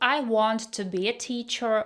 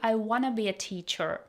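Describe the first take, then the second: First: The words 'want to' are said fully. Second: The words 'want to' are reduced to 'wanna'. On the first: "instead of" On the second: "we say"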